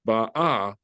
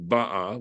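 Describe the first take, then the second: First: "ba'a" with the accent on the second syllable, ba-A; stress on second syllable. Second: "ba'a" with the accent on the first syllable, BA-a; stress on first syllable. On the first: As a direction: lean on the final syllable of "ba'a". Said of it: "second syllable". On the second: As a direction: punch the opening syllable of "ba'a". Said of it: "with the accent on the first syllable". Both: Shown as a demonstration.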